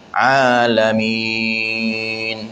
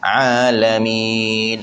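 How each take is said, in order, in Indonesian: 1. Vokal panjang ditahan enam ketukan. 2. Vokal panjang ditahan empat ketukan. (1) "Kalau nak baca enam alamin" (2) "Kalau baca empat alamin"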